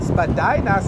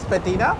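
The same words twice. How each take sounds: First: It uses the common working-class pronunciation. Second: It uses the old upper-class pronunciation. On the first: It marks the speaker as working class. "working class will call it Spadina" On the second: It marks the speaker as upper class. "back in the day the upper class will call it Spadina"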